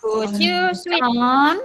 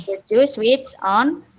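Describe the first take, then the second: First: Slow, careful dictation of Could you switch on; slow model sentence. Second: Same slow dictation of Could you switch on; slow model sentence. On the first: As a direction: spell out each word slowly for the class. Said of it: "teacher models sentence slowly". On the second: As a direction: keep the words spaced and clear. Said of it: "teacher repeats model slowly". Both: Shown as a demonstration.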